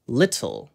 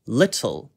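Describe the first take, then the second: First: The middle T is pronounced clearly and crisply. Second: The same.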